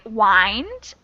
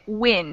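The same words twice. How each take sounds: First: The vowel is a long i sound. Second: The vowel is a short i sound. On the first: A twisting motion, as with a clock spring. "we pronounce it with a long I sound. So the second one is I" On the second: Moving air outdoors, as in weather. "has I, I, wind, short I"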